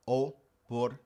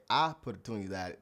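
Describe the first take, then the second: First: Oportunidad with a clear, pure o at the start; correct Spanish O. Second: Oportunidad starting with an English "ah" sound; wrong English vowel. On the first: Teacher giving the correct form, Oportunidad with pure o. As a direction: open Oportunidad on a clean o. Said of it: "you have to pronounce it with an O". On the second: Teacher showing the mistaken version, oportunidad with "ah". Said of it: "If you say". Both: Shown as a demonstration.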